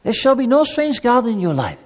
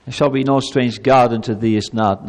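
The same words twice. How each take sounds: First: Raised, tender plea as a loving God; gentle divine invitation, pitched up. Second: Much lower, cold decree; stern commanding God. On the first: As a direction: coax the people like a caring father. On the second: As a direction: hand down the law like a harsh judge. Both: Shown as a demonstration. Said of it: "That's not how God speaks".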